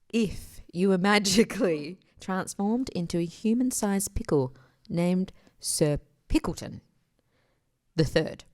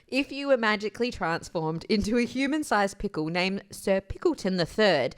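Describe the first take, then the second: First: It is read at a normal, unhurried pace. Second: It is read very quickly, words rushed together.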